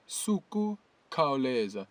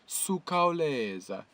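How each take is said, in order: First: An extra 'ku' syllable follows 'su'. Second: No 'ku' syllable follows 'su'. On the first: "there's a silent ku as well, so it's it could be said suku khawuleza" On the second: "you're allowed to leave that ku out after the su"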